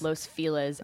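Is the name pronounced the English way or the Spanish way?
English. The name is said with English pronunciation. "everyone in LA says Los Feliz"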